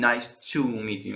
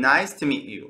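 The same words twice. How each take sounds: First: "to" said in full as "too"; unreduced "to". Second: "to" shortened to a weak "tə"; reduced "to". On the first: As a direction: give "to" its full long "oo" vowel. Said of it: "نمیگیم". («to» کامل، مثل «تو») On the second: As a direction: slip lightly over "to" as "tə" into "meet". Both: Shown as a demonstration.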